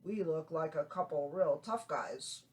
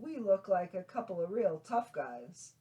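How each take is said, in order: First: It is said in a tough guy voice. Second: It is said in a normal voice.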